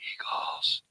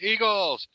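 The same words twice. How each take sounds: First: The word is whispered very quietly. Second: The word is shouted loudly as a cheer.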